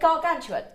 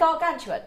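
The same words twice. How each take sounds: First: It is said in a put-on posh voice. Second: It is said in a put-on posh voice.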